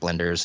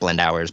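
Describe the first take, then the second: First: The ending is a short unstressed 'ers' sound. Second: The ending sounds like the word 'hours'. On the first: This is how the band itself says the name. The speaker calls it right. "it's blenders" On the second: This is how other people usually say the name. The speaker calls it wrong. "I hear people say blend hours so much"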